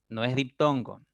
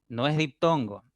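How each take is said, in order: Both takes have the same delivery.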